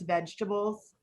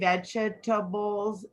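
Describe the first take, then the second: First: One syllable is dropped, shortening the word. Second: Every syllable is pronounced fully. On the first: The speaker calls it right. "another one of those shortcut words" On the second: The speaker calls it wrong. "We don't say vegetables"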